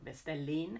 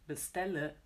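First: The word ends in an 'in' sound. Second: The word ends in a weak 'uh' sound. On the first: The speaker calls it wrong. "or bestellin" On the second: The speaker calls it right. "but we say bestelle. This ö"

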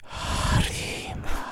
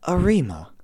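First: It is said in a spooky, echoing ghost voice. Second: It is said in a casual, everyday voice.

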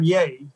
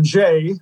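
First: It begins with a Y sound. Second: It begins with a J sound. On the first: This is how it is said in Sweden. "if I go to Sweden, I'm yay" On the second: This is how it is said in France. "if I go to France, I'm Jay"

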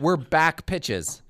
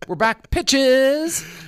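First: It runs on with no pause after back. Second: There is a pause after back.

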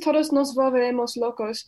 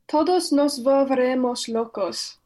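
First: It is said quickly. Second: It is said more slowly.

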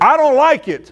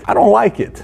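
First: It is said in a harsh, intense tone. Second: It is said in a calm, mild tone. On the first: Read as a text, it sounds much more serious. "And on text, it says" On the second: Said face to face, it sounds moderate. "this is how I say it"

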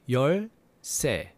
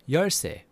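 First: It is said slowly. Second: It is said faster.

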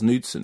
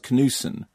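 First: The name is said with a D sound. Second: The name is said without a D sound. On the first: "But we all called him Buzz Knudsen" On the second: "you don't pronounce the D. So it'd be Buzz Knudsen"

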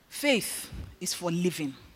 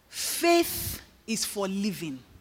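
First: It is said at a normal speed. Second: It is said slowly.

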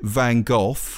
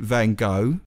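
First: The name is said the British way. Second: The name is said the American way. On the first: "British people pronounce it Van Gogh" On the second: "Americans pronounce it Van Gogh"

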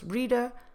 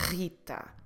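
First: The initial R is an English R. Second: The initial R is rasped in the throat. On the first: "In English, of course" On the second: "but in Portuguese, with a rolled R here in your throat"

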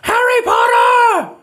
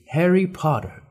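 First: The name is shouted loudly. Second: The name is read out calmly.

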